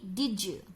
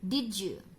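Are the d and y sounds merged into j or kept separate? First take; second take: merged; merged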